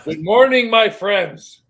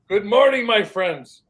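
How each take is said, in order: First: Loud booming good morning; hollered greeting. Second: Loud, high good morning call; hollered greeting. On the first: Retelling a TikTok video, loud hollered greeting. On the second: Retelling the clip again, hollered greeting. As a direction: holler it out across the yard. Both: Retold or imitated. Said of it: "guy hollers".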